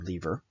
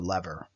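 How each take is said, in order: First: It is said in a British accent. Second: It is said in a plain, non-British accent.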